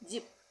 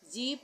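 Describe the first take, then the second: First: The vowel is a short i sound. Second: The vowel is a long ee sound. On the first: The speaker calls it right. "नहीं जिप" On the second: The speaker calls it wrong. "जीप नहीं"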